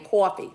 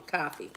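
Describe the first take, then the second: First: "coffee" as "caw-fee", mock New Jersey; New Jersey accent. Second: Said in the usual way. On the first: Shown as a demonstration. Host testing regional accents, New Jersey "coffee". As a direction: round the first vowel of "coffee", New Jersey style. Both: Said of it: "That's New Jersey, right?".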